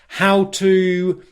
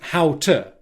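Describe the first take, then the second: First: 'To' is full, strong and drawn out. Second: 'To' is short, weak and reduced.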